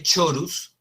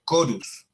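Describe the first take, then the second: First: Chorus said "CHO-rus"; chorus opening on ch; as spelled. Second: Chorus said "KO-rus"; chorus opening on k, not ch; correct Latin pronunciation. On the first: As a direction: read chorus with a Spanish ch. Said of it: "se escribe chorus". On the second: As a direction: say chorus with a hard k. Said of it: "pero se pronuncia chorus". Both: Shown as a demonstration.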